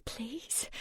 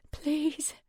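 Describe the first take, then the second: First: Moaned plea. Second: Whispered plea. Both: Acted. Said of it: "low moaning sound ... turn into the words".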